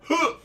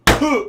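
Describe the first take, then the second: First: Retold grunt. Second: Sharp winded grunt, high and loud; the noise of a man landing hard; mock winded grunt; pained grunt. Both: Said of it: "that's the noise I heard".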